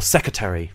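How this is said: The full ending is pronounced, but the middle R is dropped. "or secretary without even the R in the middle"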